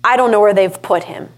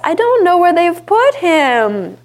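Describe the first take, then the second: First: It sounds angry and accusing, full of determination. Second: It sounds helpless and distressed, like a victim. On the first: She accuses others and is determined to act. The speaker calls it right. "it's more like filled with anger and accusations" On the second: She is a helpless victim of the situation. The speaker calls it wrong. "is less damsel in distress"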